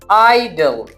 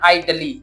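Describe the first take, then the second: First: The word ends in a plain l sound. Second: The word ends in an added ee sound. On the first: The speaker calls it right. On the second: The speaker calls it wrong.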